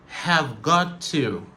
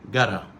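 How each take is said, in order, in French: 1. Tous les mots sont prononcés en entier et séparément. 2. Les mots se contractent en un seul mot court et réduit. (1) "Ça, c'est la prononciation normale" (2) "La réduction, c'est gotta"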